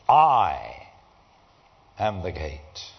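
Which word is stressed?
I. The word I is strongly stressed.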